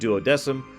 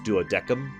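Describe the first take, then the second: First: The word is pronounced in a non-Latin way. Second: The word is pronounced the Latin way. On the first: This is how the game itself says it. "They pronounce it duodecim" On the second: This is how the word should properly sound. "it's actually supposed to be pronounced duodecim, but let's not get into Latin pronunciations"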